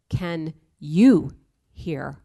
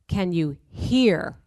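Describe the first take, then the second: First: The stress falls on the word you. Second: The stress falls on the word hear.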